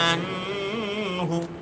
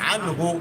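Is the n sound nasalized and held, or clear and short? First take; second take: nasalized; clear. First: The n is nasalized and held longer. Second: The n is clear and short, not nasalized. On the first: The speaker calls it wrong. "কত সুন্দর শুনতেছে, কিন্তু আসলে কাজ পাপ হয়েছে" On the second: The speaker calls it right. "না গুণা"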